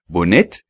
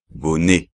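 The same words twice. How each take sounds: First: Bonnet with the t sounded, bonet; the mistake, bonnet with a t; wrong pronunciation. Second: Bonnet said bone, t silent; right way, bonnet without the t; correct French. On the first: Teacher showing students the wrong bonnet. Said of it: "no se oye bonnet". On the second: Teacher showing students the right bonnet. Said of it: "sino bonnet". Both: Shown as a demonstration.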